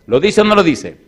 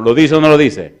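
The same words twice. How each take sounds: First: Same challenge pitched higher and loud; pressing harder. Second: Loud demanding question to the congregation; challenging the crowd. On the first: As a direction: push the question up. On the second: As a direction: press them for an answer. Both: Acted.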